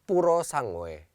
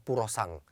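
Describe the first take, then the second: First: The name ends with a full final vowel syllable. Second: The name ends abruptly after the ng sound. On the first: The speaker calls it right. "melafalkan secara benar" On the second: The speaker calls it wrong. "rata-rata mereka menyebut dengan Purosang"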